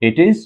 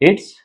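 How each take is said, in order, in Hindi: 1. दोनों शब्द अलग-अलग पूरे बोले जाते हैं। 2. दोनों शब्द मिलकर एक छोटा शब्दांश बन जाते हैं। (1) "इट इज की बजाय" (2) "हमें बोलना क्या है? इट्स"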